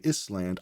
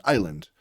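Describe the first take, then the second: First: ISLAND pronounced "iss-land", with the S sounded; imitating a student who sounds out ISLAND as "iss-land"; decoded ISLAND. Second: Said in the usual way. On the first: Shown as a demonstration. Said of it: "it means they're still decoding". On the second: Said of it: "If they say Island".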